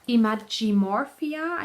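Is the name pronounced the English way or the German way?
English. The name is pronounced the English way. "I think you would pronounce it in English"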